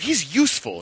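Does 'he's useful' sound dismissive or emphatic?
emphatic. It is said with strong, emphatic stress. He is genuinely valuable. "Bold and underlined"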